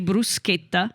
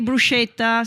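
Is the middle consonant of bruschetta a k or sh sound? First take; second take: k; sh. First: The middle consonant is a hard k sound. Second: The middle consonant is a soft sh sound. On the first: The speaker calls it right. "it's a hard sound" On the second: The speaker calls it wrong. "don't say bruschetta"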